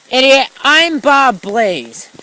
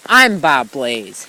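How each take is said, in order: First: Mock yell. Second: Mock quote.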